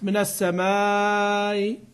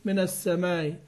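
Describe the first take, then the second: First: The vowel before the end is held long. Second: The vowel before the end is held short. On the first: "مع المد" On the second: "والقصر"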